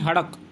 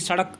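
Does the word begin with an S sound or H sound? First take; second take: H sound; S sound. First: The word begins with an h sound. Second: The word begins with an s sound. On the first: "वो बोलते हैं हड़क" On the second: "जब आप वहाँ पर बोलेंगे सड़क"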